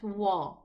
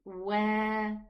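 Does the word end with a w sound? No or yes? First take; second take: no; yes. First: The word ends on an open a vowel. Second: The word ends with a w sound. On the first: The speaker calls it wrong. "not wa" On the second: The speaker calls it right. "the name of the letter is wow"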